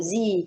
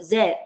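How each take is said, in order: First: The letter is said the American way. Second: The letter is said the British way.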